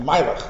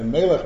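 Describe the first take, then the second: First: The first vowel sounds like 'ai'. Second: The first vowel sounds like 'eh'. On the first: "by the chassidim, also certain sounds have changed" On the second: "the A becomes like a melech"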